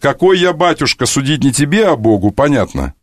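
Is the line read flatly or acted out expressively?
flatly. The line is read out flatly, without character. The speaker calls it wrong.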